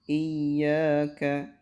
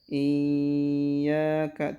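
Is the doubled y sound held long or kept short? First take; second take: kept short; held long. First: The doubled y is short with slight stress. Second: The doubled y is held long and drawn out. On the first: The speaker calls it right. "Hanya sedikit ada tekanan aja di sini, istilahnya ada nabar di sini" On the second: The speaker calls it wrong. "Jadi tidak iyyaka, tidak gitu"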